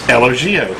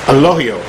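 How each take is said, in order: First: The middle consonant is a hard G sound. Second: The middle consonant is an H sound. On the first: The speaker calls it wrong. "which is what I've been calling it" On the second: The speaker calls it right. "The G is actually pronounced as an H"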